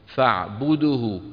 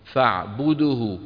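First: The lips stay rounded from the b onward. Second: The lips stay rounded from the b onward.

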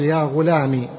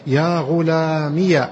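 First: The word ends in a short i sound. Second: The word ends in i followed by ya. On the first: "تحذف الياء وتضع بدلا منها كسرة" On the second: "أثبتت الياء إيش؟ متحركة"

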